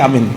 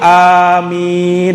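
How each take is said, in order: First: The word is short, like calling a name. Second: The word is drawn out with lengthened sounds. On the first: It sounds like a person's name. The speaker calls it wrong. "kayak manggil nama temannya aja si amin" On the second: It asks God to grant the prayer. The speaker calls it right. "amin dipanjangkan, bilmat cara bacanya"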